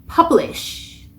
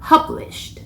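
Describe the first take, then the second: First: The final ending sound is left out entirely. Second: The final ending is a light, breathy puff. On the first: The speaker calls it wrong. "publish 까지만 하면 안 한 거고" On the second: The speaker calls it right. "바람 소리로 마무리를 해주셔야 합니다"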